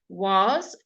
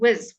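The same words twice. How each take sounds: First: The vowel in the word is full. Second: The vowel is reduced to a neutral uh.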